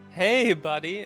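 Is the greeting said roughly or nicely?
nicely. The greeting sounds warm and friendly.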